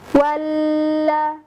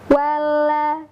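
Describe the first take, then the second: First: The doubled L is pressed hard and held long. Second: The doubled L is said lightly without heavy pressure. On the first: The speaker calls it wrong. "itu menekannya terlalu dalam" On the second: The speaker calls it right. "tidak memberikan tekanan di makhrajnya terlalu keras"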